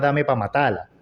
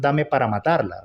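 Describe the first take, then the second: First: The words are clipped, as in casual speech. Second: Every word is said fully and carefully. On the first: This is the group's real name. The speaker calls it right. "se llama Dame Pa' Matala" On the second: The name is corrected to sound more proper. The speaker calls it wrong. "considero que esa no es la forma como se pronuncia"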